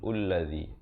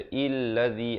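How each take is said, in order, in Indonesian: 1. Kata ini diawali vokal u. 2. Kata ini diawali vokal i. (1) "ataupun ulladzi" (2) "jangan baca illadzi"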